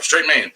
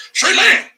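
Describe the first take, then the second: First: Said in the usual way. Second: Straight man squeaked very high; high mocking take on straight man. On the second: Shown as a demonstration. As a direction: camp falsetto send-up.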